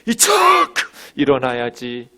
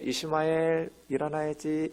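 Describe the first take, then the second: First: It is said in a strained, forceful voice. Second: It is said in a soft, gentle voice.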